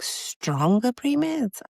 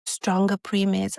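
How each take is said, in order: First: High, slow disbelieving repeat; incredulous echo. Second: Said in the usual way. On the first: Retold or imitated. Mother echoing the doctor's suggestion, incredulous. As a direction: stretch it out, stunned.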